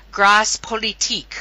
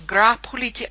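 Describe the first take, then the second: First: "Grâce" said with its final s sounded, then "Politique"; unsure French pronunciation. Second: "Gras Politique" echoed with a silent s in "Gras"; corrected French pronunciation. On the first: Real, not acted. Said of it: "not sure if I even pronounced that". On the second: Shown as a demonstration. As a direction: try "gra po-li-teek" for "Gras Politique", copying a French speaker. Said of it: "how do I pronounce the name".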